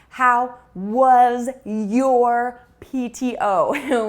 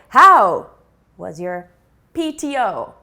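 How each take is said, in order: First: The words 'was' and 'your' get full stress. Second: The words 'was' and 'your' are very reduced. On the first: The speaker calls it wrong. "So we don't say" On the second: The speaker calls it right. "the non-stressed words like was, your are very, very small"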